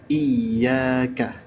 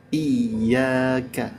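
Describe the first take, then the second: No difference in how they are said.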